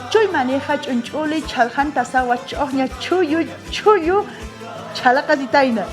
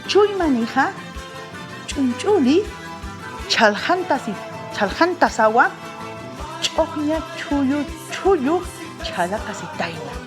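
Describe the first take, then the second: First: The tongue twister is said quickly. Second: The tongue twister is said slowly. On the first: "Ahora sí, más rápido"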